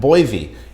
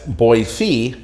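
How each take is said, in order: First: It is said the way outsiders say it. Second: It is said the way local residents say it. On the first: The speaker is not from the area. The speaker calls it wrong. "you can tell if someone is not from the area" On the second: The speaker is from the area. The speaker calls it right. "people call it Boise if you're local"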